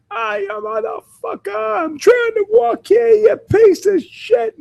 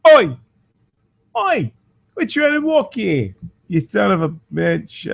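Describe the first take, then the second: First: Put-on much higher, loud New York accent rant; naked man yelling at cars in a mock New York accent. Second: Put-on much higher cockney-ish accent yell; Oi at the drivers in a garbled London-ish accent; naked man shouting at cars in a confused cockney-ish accent; muddled cockney-ish accent. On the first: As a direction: yell at drivers like a New Yorker stuck in traffic. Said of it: "not necessarily from Boston, not from New York". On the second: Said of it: "can't even figure out what accent that was supposed to be".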